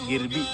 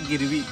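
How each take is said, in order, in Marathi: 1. मधला व्यंजन b आवाजाचा आहे. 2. मधला व्यंजन v आवाजाचा आहे. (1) "इट इज गिरबी" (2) "इट इज नॉट गिरवी"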